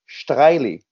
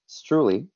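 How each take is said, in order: First: The name is said with a Swiss German pronunciation. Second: The name is said with an English pronunciation. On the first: "in Swiss German, it's pronounced Streile" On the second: "in English, we call it, we pronounce it Streule"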